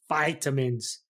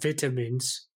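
First: It is said with an American pronunciation. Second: It is said with a British pronunciation. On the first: The speaker calls it right. "I thought you say vitamins" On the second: The speaker calls it wrong. "and not vitamins"

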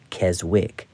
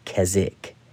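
First: The W in the middle is sounded. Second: The W in the middle is silent. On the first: The speaker calls it wrong. "Most Americans pronounce that Keswick" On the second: The speaker calls it right. "but the W is silent"

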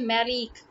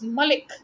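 First: The second syllable has a long vowel, like leak. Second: The second syllable has a short vowel, like lick. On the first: The speaker calls it wrong. "How does Lick translate to leak?" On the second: The speaker calls it right. "Lick is lick. So it's Malik"

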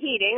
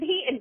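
First: The final 'g' sound is pronounced. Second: The final 'g' sound is dropped. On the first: This is the standard pronunciation. "instead of saying heating" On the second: This is the local Vermont pronunciation. "Most Vermonters drop the G"

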